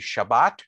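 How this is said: It is said with a Sephardic pronunciation.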